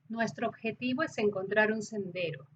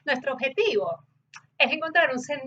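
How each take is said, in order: First: It is spoken in a neutral, even Spanish accent. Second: It is spoken in an everyday regional Spanish accent. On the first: "la entonación del acento neutro" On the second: "como quizás hablaríamos normalmente"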